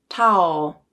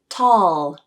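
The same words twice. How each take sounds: First: It ends with an O-like vowel sound. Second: It ends with a dark L sound. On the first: The speaker calls it wrong. "the substituted O sound" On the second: The speaker calls it right. "with the correct dark L"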